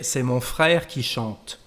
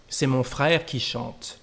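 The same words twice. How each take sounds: First: "C'est mon frère qui chante" said slowly with a fall on "frère"; slow model sentence. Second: Said in the usual way. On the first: Shown as a demonstration. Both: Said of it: "we prefer to say".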